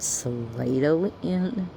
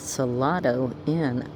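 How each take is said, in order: First: Salado is said the local Texan way. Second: Salado is said the outsider, non-Texan way. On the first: The speaker calls it right. "Doesn't he mean Salado Inn?" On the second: The speaker calls it wrong. "he said"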